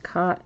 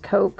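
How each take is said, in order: First: The name does not sound like the word 'coke'. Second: The name sounds exactly like the word 'coke'. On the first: "Sometimes when you see it, it's pronounced Koch" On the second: "Sometimes when you see that, it's pronounced Coke"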